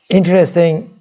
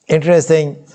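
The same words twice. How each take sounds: The two takes are said the same way.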